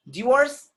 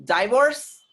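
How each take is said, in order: First: Divorce as "dih-VORCE"; short i in Divorce, high, loud and rising; British pronunciation. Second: Divorce as "die-VORCE"; long eye vowel in Divorce, rising; American pronunciation. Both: Shown as a demonstration.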